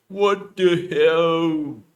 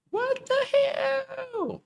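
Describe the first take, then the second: First: Loud drawn-out startled yell; loud scream. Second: Shrill startled squeal, slowed; strained high-pitched shriek. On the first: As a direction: scream it slowly in shock. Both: Acted. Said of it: "Cannot make high voice".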